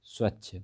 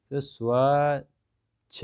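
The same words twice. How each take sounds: First: Said in the usual way. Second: Slow sounding out. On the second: Shown as a demonstration. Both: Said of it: "तो क्या बन गया".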